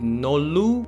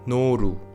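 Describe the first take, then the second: First: The middle consonant is like an English L. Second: The middle consonant is the Korean L sound. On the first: The speaker calls it wrong. "It would have sounded nolu" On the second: The speaker calls it right. "but it is noru"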